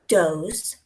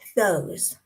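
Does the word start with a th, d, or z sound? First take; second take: d; th. First: The word starts with a d sound. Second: The word starts with a th sound. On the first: "replace that T H with a D" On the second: "the T H sound, the th"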